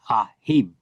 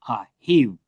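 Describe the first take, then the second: First: The word is pronounced with harder sounds. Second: The word is pronounced with soft sounds. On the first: This is the likely ancient pronunciation. "in the ancient, it would probably be" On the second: This is the usual modern pronunciation. "normally it's very soft"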